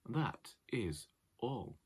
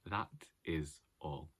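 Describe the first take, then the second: First: It is said without a smile in the voice. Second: It is said with a smile in the voice. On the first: The speaker calls it wrong. "I've now forgotten how to smile" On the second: The speaker calls it right. "We can still smile"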